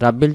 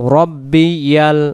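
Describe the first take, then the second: First: The 'y' sound before the ending is dropped. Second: A 'y' sound is heard before the ending. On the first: The speaker calls it wrong. "রাব্বিল যদি বলি এখানে ইয়া অক্ষরের জবরটা এবং ইয়া অক্ষরটা বাদ চলে যায়" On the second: The speaker calls it right. "ইয়াল বলবো"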